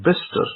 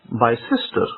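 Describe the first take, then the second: First: The name is said in a shortened two-syllable form. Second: The name is said following all its written letters. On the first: The speaker calls it right. "most people will pronounce it as Bister" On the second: The speaker calls it wrong. "if I read it in the grammatical form"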